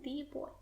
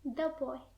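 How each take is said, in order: First: The article is pronounced 'thee'. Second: The article is pronounced 'thuh'. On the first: The speaker calls it wrong. "We don't say the boy" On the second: The speaker calls it right. "That's why we say the boy"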